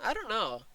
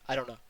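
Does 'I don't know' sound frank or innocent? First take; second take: innocent; frank. First: It sounds like a light, innocent answer. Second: It sounds flat, blunt and disturbingly frank. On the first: The speaker really does not know. "She didn't say" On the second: The speaker knows but refuses to talk. "Her tone was disturbingly frank"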